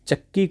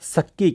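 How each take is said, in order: First: The word begins with a ch sound. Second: The word begins with an s sound. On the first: "च और छ का उच्चारण भी प्राय बदल जाता है" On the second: "वह से के रूप में उच्चारित होता है"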